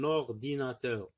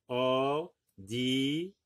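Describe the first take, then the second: First: Said in the usual way. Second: "Ordinateur" slowly, as or, di, na, teur; syllable by syllable. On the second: Shown as a demonstration. Teacher naming the computer, "Ordinateur" in slow syllables. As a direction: stretch each syllable of "Ordinateur" with gaps between. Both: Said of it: "dans la deuxième syllabe".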